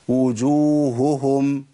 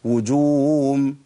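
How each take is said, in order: First: The h sounds are clearly pronounced. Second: The h sounds are lost into a w sound. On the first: The speaker calls it right. "ده الصواب" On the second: The speaker calls it wrong. "الخطأ وجوم"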